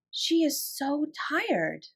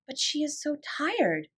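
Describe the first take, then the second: First: Slower still, soft and high, stress on "She"; tender thought. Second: Slow, soft, higher pitied murmur; tender thought. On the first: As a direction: let "She is so tired" sink gently. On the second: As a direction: linger on "tired" with pity. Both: A narrator's reading. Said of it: "she thought".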